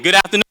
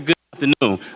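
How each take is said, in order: First: It is said loudly, with lots of energy. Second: It is said flatly, with little energy.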